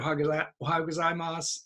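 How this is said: The pitch stays level with little intonation. The speaker calls it right. "make it flat"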